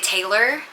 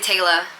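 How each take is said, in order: First: It ends with a strong American r sound. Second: It ends with no r, in an Australian accent. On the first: "in America we would say Taylor, like the super ers, like E R" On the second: "But they say Taylor"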